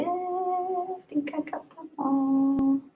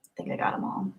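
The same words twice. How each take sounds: First: Soft, high, drawn-out singsong. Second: Very soft whisper; whispering to oneself. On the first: Streamer done checking super chats, soft high singsong. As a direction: stretch it out high and softly. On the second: Streamer checking for missed super chats, whispering to herself. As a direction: murmur it voicelessly to yourself. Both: Real, not acted.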